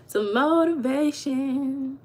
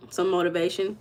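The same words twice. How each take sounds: First: Stretched slow and a little higher; slow, drawn-out emphasis. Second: Said in the usual way. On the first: Shown as a demonstration. Vlogger teasing a chat viewer, slow and drawn-out. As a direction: drag out Some motivation for effect.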